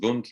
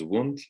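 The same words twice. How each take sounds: First: The name is said with German pronunciation. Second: The name is said with English pronunciation. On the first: The speaker calls it right. "who was a German. So that's why I'm pronouncing it as Wundt" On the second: The speaker calls it wrong. "not as Wundt"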